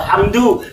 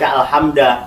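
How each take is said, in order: First: The word ends with a final u vowel. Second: The word ends with a final a vowel. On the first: The speaker calls it right. "mesti dibaca alhamdu" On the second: The speaker calls it wrong. "tidak mungkin dibaca"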